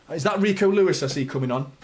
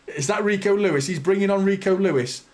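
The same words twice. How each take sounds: First: Said in the usual way. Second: Laughing through the name; laughing disbelief. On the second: Real, not acted. Fan laughing at the manager's substitution, disbelieving laugh.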